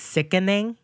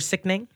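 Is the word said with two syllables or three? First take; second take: three; two. First: The middle vowel is kept, giving three syllables. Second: The middle vowel is dropped, giving two syllables. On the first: Something is disgusting. "I say something is sickening, that's you're disgusting" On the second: Something is excellent. "No E. S-I-C-K-N-I-N-G. That's great"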